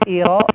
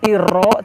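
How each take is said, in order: First: The R is a short, single tap. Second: The R is trilled with many repeated taps. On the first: The speaker calls it right. "tapi iro" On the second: The speaker calls it wrong. "huruf ro jangan terlalu banyak pantul"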